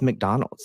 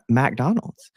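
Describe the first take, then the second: First: The first syllable has a reduced, weak vowel. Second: The first syllable has a full 'a' vowel. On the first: This is how someone without a Southern accent says it. The speaker calls it right. "there's not an A in McDonald's" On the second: This is how a Southern speaker says it. The speaker calls it wrong. "the first time I ever got called out for my Southern accent"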